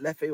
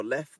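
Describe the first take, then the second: First: Leffe said in two syllables, ending in a vowel. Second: Lef said as one syllable, stopping on the f. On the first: Unsure camper trying out a beer's name, two-syllable Leffe. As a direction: say Leffe with a sounded final e. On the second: Unsure camper trying out a beer's name, one-syllable Lef. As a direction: say Lef with the final e silent. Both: Shown as a demonstration. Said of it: "not sure how you pronounce it".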